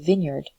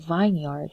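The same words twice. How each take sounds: First: The first syllable sounds like a short vin. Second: The first syllable sounds like the word vine. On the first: The speaker calls it right. "we say vineyard" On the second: The speaker calls it wrong. "we do not say vineyard"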